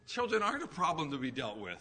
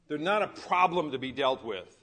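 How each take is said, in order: First: It is said with less fervor, doubtfully hopeful. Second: It is said with confident fervor.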